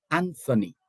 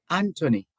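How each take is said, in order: First: "Anthony" with th as in thin; sounded TH. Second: "Anthony" with a plain T in the middle; "Anthony" with the H silent. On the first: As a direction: say "Anthony" as AN-thuh-nee. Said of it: "how he pronounces his name". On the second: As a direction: say "Anthony" as AN-tuh-nee, no th. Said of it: "based on existing". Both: Shown as a demonstration.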